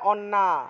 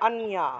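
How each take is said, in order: First: The middle sound is a doubled n. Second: The middle sound is n followed by y. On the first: This is the Bengali reading. "বাংলায় বললে অন্না" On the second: This is the Sanskrit reading. "সংস্কৃত উচ্চারণ কি হবে? অন যুগ ইয়া"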